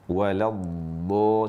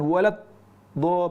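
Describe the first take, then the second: First: The sound flows on without a break. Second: The sound stops briefly in the middle. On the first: The speaker calls it right. "ada aliran suara" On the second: The speaker calls it wrong. "Jadi bukan walad, do putus"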